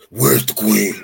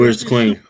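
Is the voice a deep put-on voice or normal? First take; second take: deep; normal. First: The speaker uses a deep, gravelly put-on voice. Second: The speaker uses a normal speaking voice.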